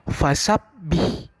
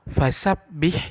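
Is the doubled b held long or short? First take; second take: long; long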